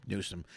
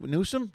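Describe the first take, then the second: First: "Newsom." with a falling tune, said softer and sure; "Newsom." dropped low and final; settled answer. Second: "Newsom?" with a rising, questioning tune; "Newsom?" tentatively rising at the end; unsure question. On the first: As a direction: land on "Newsom." as the answer found. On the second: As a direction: ask "Newsom?" as if unsure of the name. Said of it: "New-, Newsom?". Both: Real, not acted.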